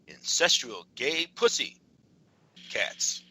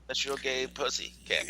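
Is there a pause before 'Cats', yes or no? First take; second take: yes; no. First: It is said with a pause before 'Cats'. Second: It is said without a pause before 'Cats'.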